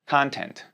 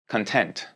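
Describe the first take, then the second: First: The stress is on the first syllable. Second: The stress is on the second syllable. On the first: It is a noun meaning contents. "내용" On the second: It means satisfied. "만족하다"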